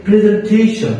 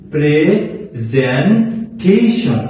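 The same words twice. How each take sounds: First: প্রেজেন্টেশন in one go, higher on "TEI-shon"; whole-word model. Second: প্রেজেন্টেশন very slowly as "pre - zen - tei-shon"; syllable-by-syllable demo. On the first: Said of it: "বলতে পারেন যে". (প্রেজেন্টেশন একটানে, উঁচু স্বরে) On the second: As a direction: break প্রেজেন্টেশন into parts with pauses. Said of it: "কি?". (প্রেজেন্টেশন ভেঙে ভেঙে, খুব ধীরে) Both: Shown as a demonstration.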